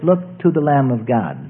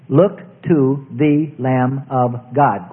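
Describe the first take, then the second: First: Said in the usual way. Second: "Look to the Lamb of God" very slow, each word separate; deliberate, spaced-out "Look to the Lamb of God". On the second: Shown as a demonstration. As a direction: stretch out "Look to the Lamb of God" to show every sound. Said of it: "quite different".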